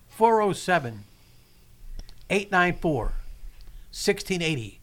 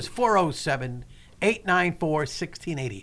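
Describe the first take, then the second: First: The number is said slowly and carefully. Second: The number is said at normal speed.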